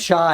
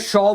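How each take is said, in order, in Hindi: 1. स्वर खुली 'aa' ध्वनि है। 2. स्वर गोल होठों वाली 'aw' ध्वनि है। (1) "जबकि उसका नाम शाह है" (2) "अपने आप को ना आलिया शॉ बोलती है"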